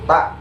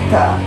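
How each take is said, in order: First: The syllable is cut off abruptly without breath. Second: The syllable ends with an audible puff of air. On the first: The speaker calls it wrong. "bukan tak" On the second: The speaker calls it right. "ada suara hembusan anginnya"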